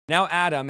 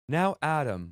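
First: Said in a put-on AI chatbot voice. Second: Said in a put-on Bible app narrator voice. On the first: The speaker calls it right. "We're going to say it like an AI chatbot" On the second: The speaker calls it wrong. "Should I say it like the guy on the Bible app?"

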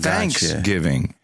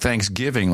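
First: The stress is on thanks. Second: The stress is on giving.

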